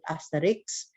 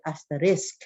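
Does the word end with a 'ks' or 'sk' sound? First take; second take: ks; sk. First: The word ends with a 'ks' sound. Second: The word ends with an 'sk' sound. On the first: This is how it is said in Atlanta. "in Atlanta we call it" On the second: This is how it is said on the East Coast. "here in the East Coast they call it"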